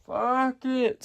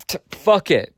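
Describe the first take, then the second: First: Fuck it lifted high and soft. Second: Said in the usual way. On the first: Real, not acted. Picking a coast to live on, a high airy fuck it. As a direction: float fuck it up high, breezy.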